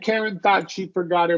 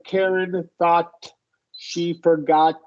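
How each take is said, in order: First: Final stops are held and flow into the next word. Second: Each final stop consonant is audibly released. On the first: The speaker calls it right. "we're stopping here before the next consonant and just kind of flowing into the next one" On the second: The speaker calls it wrong. "You're releasing each one"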